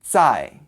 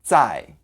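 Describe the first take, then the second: Both takes have the same delivery.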